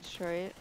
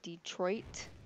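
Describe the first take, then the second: First: The final T is cut off. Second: The final T is clearly pronounced. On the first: This is how people from Michigan say it. "people from Michigan just say Detroit" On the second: This is how most people say it. "most people would say Detroit and emphasize the T"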